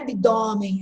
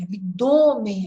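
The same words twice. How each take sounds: First: The stressed o is pronounced open. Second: The stressed o is pronounced closed. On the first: The speaker calls it wrong. "não é abdômen" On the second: The speaker calls it right. "é fechado"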